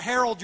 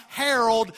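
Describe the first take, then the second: First: Harold said as the man's name, like your uncle; Harold, the uncle's name. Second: Herald, meaning proclaim; the word herald. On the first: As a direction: say Harold as the name, not the verb. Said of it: "your uncle". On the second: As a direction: herald said as the verb, to proclaim, firmly. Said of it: "I'm talking about herald". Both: Shown as a demonstration.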